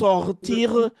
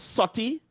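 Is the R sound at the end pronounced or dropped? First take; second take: pronounced; dropped. First: The final R sound is pronounced. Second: The final R sound is dropped. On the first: This is the French form. "the word to go out is sortir" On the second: This is the patois form. "No R at all"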